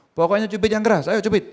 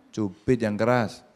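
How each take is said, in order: First: High, loud urging order; a teacher's loud, high-pitched insistence; insistent command. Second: Slow, deliberate command; a teacher's slow, insistent instruction; slow firm order. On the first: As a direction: push them to do it now. Teacher insisting in retold scene. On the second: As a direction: spell the order out slowly. Teacher repeating order to pinch. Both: Retold or imitated.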